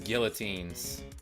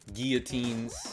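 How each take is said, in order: First: It is said with an Americanized pronunciation. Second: It is said with a French-style pronunciation. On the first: The speaker calls it wrong. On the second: The speaker calls it right.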